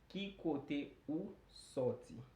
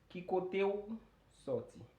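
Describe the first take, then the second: First: The phrase is said at a normal, careful speed. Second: The phrase is said quickly and run together.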